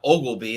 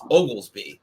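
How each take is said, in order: First: The name is said without an s sound. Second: The name is said with an s sound. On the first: The speaker calls it wrong. "a lot of people miss the S and call him Ogleby" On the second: The speaker calls it right. "There's an S in there"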